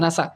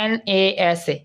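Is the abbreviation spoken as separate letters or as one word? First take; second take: one word; letters. First: It is spoken as one blended word. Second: It is spoken as four separate letters. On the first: The speaker calls it right. "এই short ফর্মটা উচ্চারণ করতে সুন্দর" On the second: The speaker calls it wrong. "নাসার ক্ষেত্রে কিন্তু বলি না NASA"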